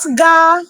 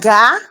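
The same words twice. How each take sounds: First: The word is said on a high tone. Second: The word is said on a low tone. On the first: The speaker calls it wrong. "Not ga" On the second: The speaker calls it right. "It's ga. Low"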